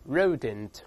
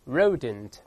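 First: The first sound is an English r, tongue curled. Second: The same.

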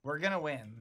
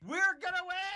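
First: It is said casually, without much conviction. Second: It is said with strong conviction.

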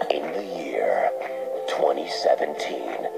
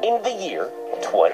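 First: It is said in a movie-trailer voice. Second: It is said in his normal voice.

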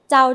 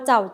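First: The syllable is said with a mid tone. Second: The syllable is said with a low tone. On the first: "เสียงสามัญ" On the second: "เอก"

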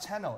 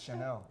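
First: It is said with a Korean accent. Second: It is said with an American accent. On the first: The speaker calls it wrong. "It's not Chanel" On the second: The speaker calls it right. "It's Chanel"

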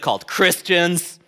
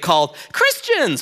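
First: It is said in an irritated, scornful tone. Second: It is said in a warm, fond tone. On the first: The name expresses annoyance with the group. "a term of we're annoyed by you" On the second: The name is a term of endearment. "a term of endearment"

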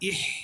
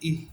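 First: The h sound is heavy and deep. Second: The h sound is light and thin. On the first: The speaker calls it wrong. "এইটা যাতে না হয়, এটা হলে এটা ভুল" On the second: The speaker calls it right. "ইহ পাতলা করে হবে"

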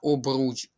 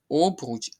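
First: The stress is on the second syllable. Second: The stress is on the first syllable. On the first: The speaker calls it right. "а обруч. Обруч. Наголос на другий склад" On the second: The speaker calls it wrong. "Не обруч"

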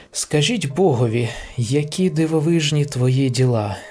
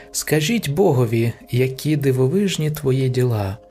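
The two takes are said the same way.

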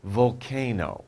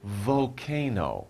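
The two takes are said the same way.

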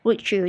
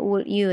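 First: The two words blend with a ch sound. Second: The two words are said separately. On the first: "kalau dicampur jadi would you. Jadi kayak ada C-nya gitu" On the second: "sebenarnya would you"

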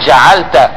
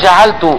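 First: The final syllable ends with an 'a' vowel. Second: The final syllable ends with a 'u' vowel. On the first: Someone else did the action. "بنصب التاء" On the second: The speaker did the action. "بضم التاء"

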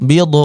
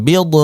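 No difference in how they are said.

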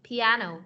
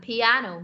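The two takes are said the same way.

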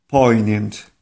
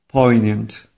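No difference in how they are said.

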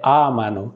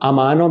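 First: The stress is on the first syllable. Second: The stress is on the second syllable. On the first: The speaker calls it right. "साथ साथ मेरे प्रोनाउंसिएशन पे भी गौर करें" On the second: The speaker calls it wrong. "अमानो भी कई लोग कह देते हैं, अमानो गलत है"

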